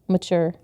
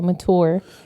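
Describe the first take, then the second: First: The middle sound is a 'ch' sound. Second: The middle sound is a plain 't'. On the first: The speaker calls it right. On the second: The speaker calls it wrong. "I hate the way you say it"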